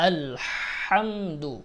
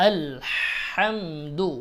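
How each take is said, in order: The two takes are said the same way.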